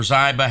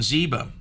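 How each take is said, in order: First: Ziba, first syllable rhyming with eye; Ziba as ZYE-buh. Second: Ziba, first syllable rhyming with see; Ziba as ZEE-buh. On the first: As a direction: say Ziba with a long i. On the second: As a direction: say Ziba with a long ee. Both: Shown as a demonstration. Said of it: "however you wanna say it".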